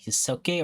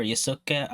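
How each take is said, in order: First: Yusuke ending in a clear "-kay"; unsure pronunciation. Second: Yusuke ending in a short "-kuh"; alternative pronunciation. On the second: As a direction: say Yusuke as "yuh-SOO-kuh". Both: Shown as a demonstration. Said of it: "have trouble pronouncing his name".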